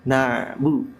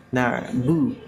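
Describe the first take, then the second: No difference in how they are said.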